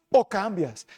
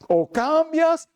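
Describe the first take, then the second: First: Said in the usual way. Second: "cambias" drawn out slowly and pitched high; slow emphatic ultimatum. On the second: Acted. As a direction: stretch "O cambias" like a final warning. Preacher repeats God's ultimatum. (advertencia lenta y enfática)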